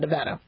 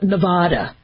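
First: The name is said in a plain, local way. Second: The name is said in a fancier-sounding way. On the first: This is how locals say the name. The speaker calls it right. "I live in Nevada" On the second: This is how outsiders mispronounce the name. The speaker calls it wrong. "people call it Nevada. And like they're trying to make a more bougie sounding"

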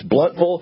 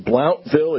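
First: The first syllable rhymes with 'hunt'. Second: The first syllable rhymes with 'count'. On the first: The speaker calls it right. "it's Bluntville" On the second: The speaker calls it wrong. "You can't say Blountville"

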